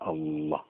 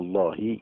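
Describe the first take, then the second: First: The final h carries no vowel. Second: The final h is followed by i. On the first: The speaker calls it right. "تقف عليها سكون" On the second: The speaker calls it wrong. "بالكسره ... ما يصحش"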